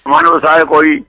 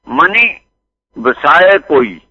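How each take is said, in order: First: The word man ends without an i vowel. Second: The word man ends with an added i vowel. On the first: The speaker calls it wrong. "ਟਿੱਪੀ ਨਹੀਂ ਹੈ ਮਨ ਨੂੰ" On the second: The speaker calls it right. "ਮਨੀ ਲਫ਼ਜ਼ ਸਿਆਰੀ ਨਾਲੇ ਹੁੰਦਾ"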